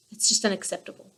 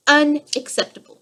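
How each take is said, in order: First: Said in the usual way. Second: Unacceptable said higher and louder for emphasis; emphatic UNACCEPTABLE. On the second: Real, not acted. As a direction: hit "Unacceptable" hard, pitched up and louder. Repeats the word for emphasis.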